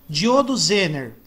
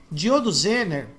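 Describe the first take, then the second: No difference in how they are said.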